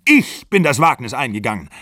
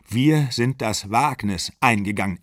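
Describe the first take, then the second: First: "Ich" punched high and loud; "Ich" thrown out sharply, then the rest falls; stress on ICH. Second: Said in the usual way. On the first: A narrator's reading. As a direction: hit "Ich" hard as an angry correction. Corrects wir to ich.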